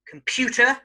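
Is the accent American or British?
British. It is said in a British accent. "in British English"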